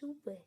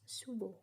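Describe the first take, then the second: First: The word ends in an e vowel. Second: The word ends in an o vowel. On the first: The speaker is from the Kelungkung area. "by the Kelungkung people in the Kelungkung dialect" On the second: The speaker is from the Tabanan area. "by the Tabanan people in the Tabanan dialect"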